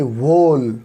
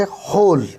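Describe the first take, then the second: First: "वोल" starting with a sounded W; W wrongly sounded. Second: "होल" starting straight on H; silent W. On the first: Teacher shows learners the wrong reading, "वोल" with W voiced. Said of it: "डब्ल्यू की अलग से आवाज़ नहीं निकलती". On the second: Teacher models the correct reading, "होल" with silent W. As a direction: say "होल" with no w sound before the h. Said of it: "उससे आगे के शब्द को पढ़ेंगे". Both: Shown as a demonstration.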